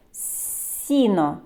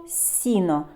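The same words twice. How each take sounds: First: "Сіно" with a long soft initial "с"; drawn-out soft S. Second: Said in the usual way. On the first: Shown as a demonstration. Teacher showing the first sound, "Сіно" with stretched soft "с". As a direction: hold the first hiss of "Сіно". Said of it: "Який перший звук чуємо". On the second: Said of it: "Наступне слово".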